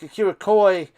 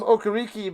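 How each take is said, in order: First: The name ends with a 'koy' sound. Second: The name ends with a 'kee' sound. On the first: This is how the name was said later. "Then it was like Akira Koi" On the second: This is how the name used to be said. "I remember calling him Okariki back in the day"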